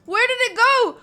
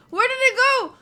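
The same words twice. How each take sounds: The two takes are said the same way.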